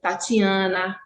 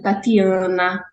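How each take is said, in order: First: The t before i sounds like ch. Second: The t before i is a plain t. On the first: "no Sudeste é" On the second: "não palatalização do T e do D"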